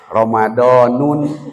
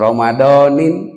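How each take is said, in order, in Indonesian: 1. Kata "Ramadan" berakhir dengan bunyi -un yang ditambahkan. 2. Kata "Ramadan" berakhir dengan bunyi -in yang ditambahkan. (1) "mada mual di aos Ramadanun" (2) "Mual di aos Ramadanan mual atau Ramadanin"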